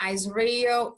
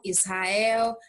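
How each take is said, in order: First: "Israel" as "IZ-ree-ol", English r; English pronunciation. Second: "Israel" with h-like r, "is-ha-EL"; Portuguese pronunciation. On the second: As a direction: say "Israel" the Brazilian way. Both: Shown as a demonstration. English then Portuguese name.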